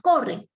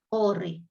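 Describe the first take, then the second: First: The word is said as a forceful exclamation. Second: The word is said flatly, without exclamation. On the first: The speaker calls it right. "con signos de exclamación" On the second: The speaker calls it wrong. "no puedo leer corre, no, no"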